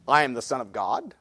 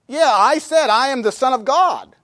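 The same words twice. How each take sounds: First: Low and soft, set apart; solemn, quiet claim. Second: Raised pitch, insisting; emphatic protest. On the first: Jesus quoted answering the Pharisees, quiet and solemn. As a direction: state it quietly and gravely. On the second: What he's really telling him, in emphatic protest. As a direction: argue it back at them, higher. Paraphrases Jesus arguing with Pharisees. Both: Acted.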